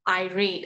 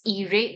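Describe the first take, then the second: First: The first vowel is not an 'ee' sound. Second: The first vowel is an 'ee' sound. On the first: The speaker calls it right. "the pronunciation of this word is actually irate" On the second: The speaker calls it wrong. "because of the I that has the E sound"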